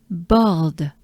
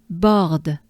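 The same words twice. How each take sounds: No difference in how they are said.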